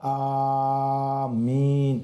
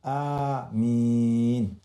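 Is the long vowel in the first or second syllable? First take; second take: first; second. First: The first vowel is long, the second short. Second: The first vowel is short, the second long. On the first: The speaker calls it wrong. "itu silaplah" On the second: The speaker calls it right. "A itu pendek, min itu yang panjangnya"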